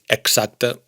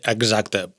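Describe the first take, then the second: First: The x is a voiceless ks sound. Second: The x is a voiced gz sound. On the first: "también está bien" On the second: "Sería más bien una Gz"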